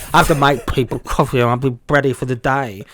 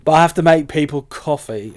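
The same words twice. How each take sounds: First: Wrong key. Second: Louder, higher mock protest; mock indignant. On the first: Shown as a demonstration. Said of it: "why am I doing the key". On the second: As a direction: protest loudly, playing the boyfriend. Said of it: "act this scene".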